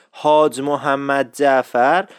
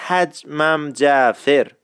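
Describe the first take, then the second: First: Slow حاج محمد جعفر as "haaj mohammad jafar"; full standard form. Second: Slow حجمم جعفر as "haj-mam jafer"; contracted dialect form. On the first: Teacher expands the contraction, slow full form. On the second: Teacher shows the contraction, slow Isfahani form. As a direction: squeeze the name into حجمم, "jafer" with an e. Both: Shown as a demonstration.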